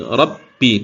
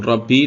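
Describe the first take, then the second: First: The b sound is pressed and held. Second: The b sound is short, not held. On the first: The speaker calls it right. "tapi Rabbi. Ditahan dulu" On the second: The speaker calls it wrong.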